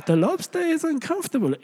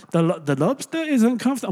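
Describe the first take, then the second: First: High-pitched, hammed-up Jewish rabbi impression; Jewish rabbi accent. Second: Hint of a Jewish accent, higher pitch; Jewish rabbi accent. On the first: Preacher gives in and mimics the rabbi, hammed-up Jewish accent. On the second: Preacher begins quoting a rabbi on lobsters, hint of Jewish accent. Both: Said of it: "I'm not gonna do a Jewish accent".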